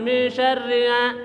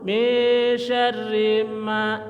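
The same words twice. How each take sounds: First: The m is made weakly without closed lips. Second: The m is made clearly with closed lips. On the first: The speaker calls it wrong. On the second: The speaker calls it right. "Ma didapatkan dulu"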